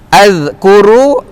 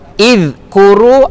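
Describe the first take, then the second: First: The word begins with an a vowel. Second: The word begins with an i vowel.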